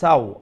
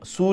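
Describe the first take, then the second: First: The vowel is the diphthong 'aw'. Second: The vowel is a long 'oo'. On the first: The speaker calls it right. "ওয়াওয়ে লিন, ওয়াও সাকিনের আগে জবর" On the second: The speaker calls it wrong. "সু নাই"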